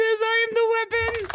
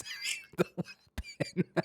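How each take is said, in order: First: High, loud mock battle cry; loud weapon quote. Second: Soft mock whisper. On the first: Mocking the old man's sign with a loud, high battle cry. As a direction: belt it out like a proud old warrior. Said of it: "It sure says". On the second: Repeating the sign to the viewers as a hushed whisper. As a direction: breathe the words like a secret.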